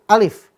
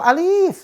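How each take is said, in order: First: The vowel in the name is kept short. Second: The vowel in the name is drawn out long. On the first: The speaker calls it right. "Bunyinya alif. ... nggak dibaca panjang" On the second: The speaker calls it wrong.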